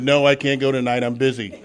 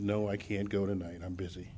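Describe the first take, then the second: First: Retold refusal, said loud and firm; loud brush-off. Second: Softer, worn-down no; quiet refusal. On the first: Refusing the woman's meeting invite, loud and firm. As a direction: shut the invitation down hard. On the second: Retold or imitated. Refusing the same meeting invite again, quiet and tired. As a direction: turn her down again, quietly.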